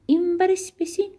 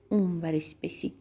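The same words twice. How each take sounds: First: High-pitched seesaw call; playful, high storybook voice. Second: Dropped, softer seesaw reply; playful low, quieter storybook voice; playful lower answer. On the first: Acting out a seesaw game. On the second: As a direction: drop down like the seesaw's low end. Other end of the seesaw. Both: Acted.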